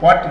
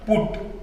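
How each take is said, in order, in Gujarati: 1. સ્વર 'cut' માંના સ્વર જેવો લાગે છે. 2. સ્વર 'foot' માંના સ્વર જેવો લાગે છે. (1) "પટ નહીં"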